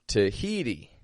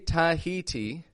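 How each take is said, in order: First: The first vowel is reduced to a weak schwa. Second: The first vowel is a full, clear vowel. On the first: The speaker calls it right. "notice also how I said Tahiti" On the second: The speaker calls it wrong. "I didn't say Tahiti"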